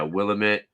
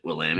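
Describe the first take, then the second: First: Willamette stressed on WILL, short weak middle vowel; first-syllable stress. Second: Willamette stressed on LAM, rising as a question; second-syllable stress. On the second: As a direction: say Willamette as wuh-LAM-it, checking it. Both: Real, not acted. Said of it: "Is that how you pronounce it?".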